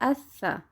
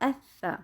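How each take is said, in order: No difference in how they are said.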